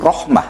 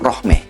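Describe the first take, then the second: First: The final vowel is an open 'ah' sound. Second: The final vowel is an 'eh' sound. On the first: This is how West Javanese people say it. "orang Jawa Barat ... memanggil nama Rohmah itu Rohmah" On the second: This is how Betawi people say it. "Tapi kalau orang Betawi beda. ... Manggilnya itu Rohmeh"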